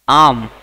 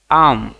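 First: आर्म called out loud and clear as AARM; loud model word. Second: आर्म repeated loud and clear as AARM. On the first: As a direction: announce आर्म loudly for the class to repeat. (आर्म ज़ोर से स्पष्ट बोलना) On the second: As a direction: repeat आर्म firmly for students. (आर्म दोबारा ज़ोर से बोलना) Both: Shown as a demonstration. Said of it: "इसे अंग्रेजी में कैसे बोलेंगे?".

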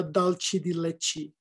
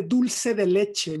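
First: "dolce de leche" as DOLE-chee dee LETCH-ee; anglicized pronunciation. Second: Said in the usual way. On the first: Shown as a demonstration. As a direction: say "dolce de leche" with American vowels and ch. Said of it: "no dolce de leche". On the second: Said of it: "Se dice dulce de leche".

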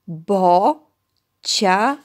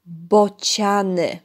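First: "Bociany" in three loud, slow beats, Bo, cia, ny; split into syllables. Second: Said in the usual way. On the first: Shown as a demonstration. Teacher dividing for children, "Bociany" slowly as Bo, cia, ny. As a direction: stretch and separate each syllable of "Bociany" with pauses. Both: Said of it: "Dzielimy na sylaby".

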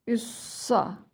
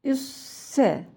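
First: ÜSSA with a heavy s and dark "a"; thick s. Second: ÜSSE with a light s and front "e"; thin s. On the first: Teacher contrasting for children, thick s. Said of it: "kalın". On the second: Teacher contrasting for children, thin s. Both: Shown as a demonstration.

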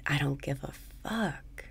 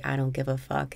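First: "I don't give a fuck" whispered softly, breathy and unvoiced; whispered mantra. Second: Said in the usual way. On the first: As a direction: breathe the words out as a quiet whisper.

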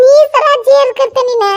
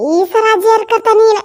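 First: Stern mother-in-law. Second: Said in the usual way. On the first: Retold or imitated. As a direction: echo the mother-in-law's threat. (ಅತ್ತೆಯ ಗದರಿಕೆಯ ಅನುಕರಣೆ) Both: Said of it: "ನಮ್ಮ ಅತ್ತಿ ಹೇಳೇ ಬಿಟ್ಟಿದ್ಲ".

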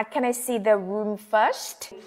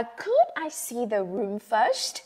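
First: Slow, clear model question; careful slow model sentence. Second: Slow, very polite request; extra polite. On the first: Teacher modelling a travel phrase slowly for students. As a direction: spell it out slowly for learners. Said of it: "yêu cầu một cách khẩn thiết hơn". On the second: Teacher contrasting polite could with can, said courteously. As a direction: ask as politely as you can. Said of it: "Thì kiểu mình quá lịch sự đi". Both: Shown as a demonstration.

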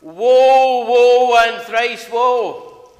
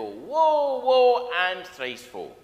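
First: High, loud, drawn-out wail of doom; Senna the soothsayer. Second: Senna the soothsayer. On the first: Acted. Preacher opening his sermon, wailing as the soothsayer of doom. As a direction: wail it like a doom-laden TV prophetess. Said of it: "said Senna the soothsayer". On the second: Retold or imitated. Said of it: "she used to come on in every episode and go".

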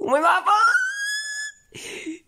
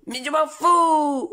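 First: Very high, drawn-out shrieking cry; screeching wail. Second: Louder, slow stubborn yell; mock angry shout. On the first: Acted. Son losing it with his father, high drawn-out screeching wail. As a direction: let it break into a shrill wail. Son's outburst escalates. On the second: Son yelling at his father, slow mock-angry shout. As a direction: throw it back at dad. Son's outburst.

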